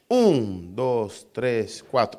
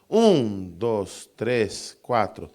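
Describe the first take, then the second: First: The strong accent falls on the first count. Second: The same.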